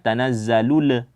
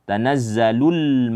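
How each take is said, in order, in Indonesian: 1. Huruf l di akhir dilepas dengan pantulan. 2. Huruf l di akhir ditahan dengan halus, tanpa dipantulkan.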